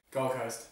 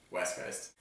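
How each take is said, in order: First: Said in the usual way. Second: Low, creepy whisper. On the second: Shown as a demonstration. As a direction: breathe it out like a creep. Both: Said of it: "That was a really creepy voice".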